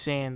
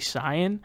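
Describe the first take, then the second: First: The name is pronounced in an English-style way. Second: The name is pronounced in a Japanese-style way. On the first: The speaker calls it right. "the way you pronounce it in English" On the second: The speaker calls it wrong. "the weeb version of it is to say Saiyan"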